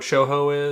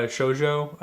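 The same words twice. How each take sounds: First: Shoujo said as "show-hoe", j like Spanish h; Spanish-sounding shoujo. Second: Shoujo said "show-joe", hard English j. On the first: Real, not acted. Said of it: "you sang it, like, in a Spanish accent". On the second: Shown as a demonstration. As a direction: say shoujo slowly with a clear j sound. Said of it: "S H O J O".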